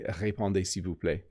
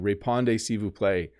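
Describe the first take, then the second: First: It is said with a French accent. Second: It is said with an English accent.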